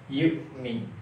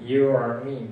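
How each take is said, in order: First: The middle consonant is a short glottal catch. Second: The middle consonant is a throaty 'ain' sound. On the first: The speaker calls it right. "hamzah itu cukup mentok saja, kita tekan" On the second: The speaker calls it wrong. "bukan huruf ain, ya. Tidak yu'mi, bukan"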